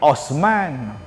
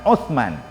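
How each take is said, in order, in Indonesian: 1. Konsonan tengah itu bunyi s biasa. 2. Konsonan tengah itu bunyi th. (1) "Mai kita ni Osman" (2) "Sebutan yang betulnya Utsman"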